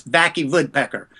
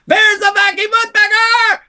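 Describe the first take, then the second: First: Mock German accent, the W said as a V; Vacky Woodpecker with a V, hammed-up German accent; fake German accent. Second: Much higher, loud yell of Vacky Woodpecker; wild high yelled announcement; excited shout. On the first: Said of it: "all I could say was". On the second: Retold or imitated. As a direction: burst in shouting like a terror. Bursting into the agency yelling.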